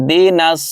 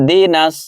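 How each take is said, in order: No difference in how they are said.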